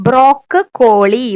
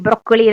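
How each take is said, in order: First: ബ്രോക്ക് കോളി said as two parts, a break before കോളി; ബ്രോക്ക് കോളി, each half said clearly on its own; split spelling pronunciation. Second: Said in the usual way. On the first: Shown as a demonstration. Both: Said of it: "രണ്ട് C ഉണ്ട് ട്ടോ".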